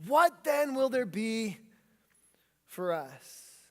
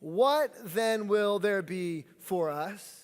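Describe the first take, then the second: First: What then will there be for us? slow, fading down on for us; repeated question. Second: What then will there be for us? drawn out slowly, rising at the end; slow group read-along, lifting up on the end; said as a question. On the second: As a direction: congregation reading it together as a question. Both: Shown as a demonstration. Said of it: "say it like a question".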